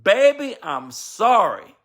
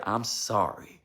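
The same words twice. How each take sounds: First: Put-on high "Baby" then a very slow, drawn-out "I'm sorry"; a husband humbly apologizing to his wife, slow and sincere; heartfelt apology. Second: "I'm sorry" said softly and lower, almost under the breath; a gentle hushed "I'm sorry"; tender, quiet "I'm sorry" shown to the congregation; soft apology. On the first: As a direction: plead it from the heart, stretching "sorry". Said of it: "the most powerful word a husband and a wife can say". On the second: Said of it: "It's something about that word". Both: Shown as a demonstration.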